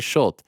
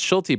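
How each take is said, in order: First: The name ends on the consonant, vowel silent. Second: The name ends with a pronounced final vowel. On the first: The speaker calls it wrong. "They don't say Schult" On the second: The speaker calls it right. "they pronounce Schulte"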